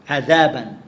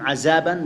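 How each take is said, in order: First: The middle consonant is made with the tongue between teeth. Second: The middle consonant is changed into a different letter. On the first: The speaker calls it right. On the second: The speaker calls it wrong.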